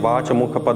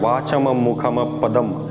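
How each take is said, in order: First: The words end without a final m sound. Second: Each word ends with a final m sound. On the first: The speaker calls it wrong. "वहाँ पे वाच मुख पद नहीं लिखा है" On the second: The speaker calls it right. "यहाँ पे म का उच्चारण हो रहा है"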